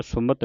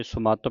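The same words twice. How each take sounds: First: ਸੁਮਤ said as "su-mat"; ਸੁਮਤ with a brief "mat"; short second vowel. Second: ਸੁਮੱਤ said as "su-maat"; ਸੁਮੱਤ with a long "maa"; long second vowel. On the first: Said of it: "ਸੁਮਤ ਨਹੀਂ ਪੜ੍ਹਨਾ". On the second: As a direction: lengthen the a in ਸੁਮੱਤ. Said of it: "ਸੁਮੱਤ ਪੜ੍ਹਨਾ". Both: Shown as a demonstration.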